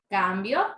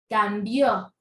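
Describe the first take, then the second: First: The stress is on the first syllable. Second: The stress is on the last syllable. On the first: "La sílaba tónica es la sílaba cam" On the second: "sílaba tónica es vio, cambió"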